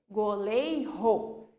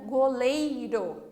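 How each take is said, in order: First: The r is a strong, long sound. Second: The r is a weak, short tap. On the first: "Se nós tivéssemos dois R's" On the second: "entre vogais, ela vai ter esse sonzinho fraco"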